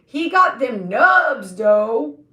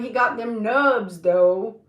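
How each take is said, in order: First: Louder, slower, hammed-up repeat; louder mock-admiring take. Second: Said in the usual way. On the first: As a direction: lean on it harder this time. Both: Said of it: "But I was like".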